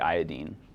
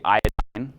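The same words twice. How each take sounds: First: The final syllable ends in an 'een' sound. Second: The final syllable does not end in 'een'. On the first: "the end we're saying ene" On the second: "A lot of people say iodine. That doesn't fit with the way that we pronounce the other ones"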